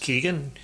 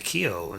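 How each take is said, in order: First: The name ends with a 'gan' syllable. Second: The name ends in an open vowel. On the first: This is how someone else said it is said. "Someone said his name was pronounced Keegan" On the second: This is how the speaker always thought it was said. "I want to say Keo"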